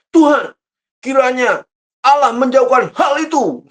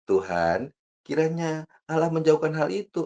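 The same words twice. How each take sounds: First: It is said loudly and forcefully. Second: It is said softly and gently.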